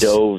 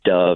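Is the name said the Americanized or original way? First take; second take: original; Americanized. First: The name is said with its original pronunciation. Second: The name is said with an Americanized pronunciation. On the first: This is the formally correct form of the name. "Dove is the technical pronunciation" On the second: This is the form the person actually uses day to day. "Dove is what I go by. That's like the Americanized version"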